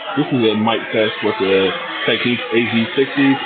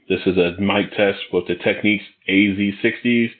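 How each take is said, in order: First: The voice is heard over crowd background noise. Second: The voice is heard over little background noise. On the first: "in a crowded location" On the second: "in a semi-quiet environment"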